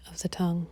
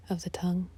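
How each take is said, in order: Both takes have the same delivery.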